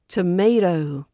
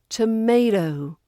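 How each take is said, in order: First: It is said with an American accent. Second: The same.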